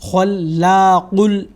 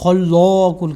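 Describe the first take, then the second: First: The long vowel after L sounds light and unrounded. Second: The long vowel after L sounds heavy and rounded. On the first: The speaker calls it right. "बल्कि इसको पढ़ेंगे" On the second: The speaker calls it wrong. "इसको हम पुर यानी गोल नहीं पढ़ेंगे"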